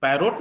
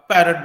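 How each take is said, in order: First: पैरोट with a full O, pa-rot; पैरोट, second vowel rounded and full; wrong parrot. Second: पैरट with a schwa, pe-rət; पैरट, short second vowel, louder; correct parrot. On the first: Teacher shows the wrong way: पैरोट with full O. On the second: Teacher gives the right form: पैरट with schwa. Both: Shown as a demonstration. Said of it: "पैरोट नहीं बोलते".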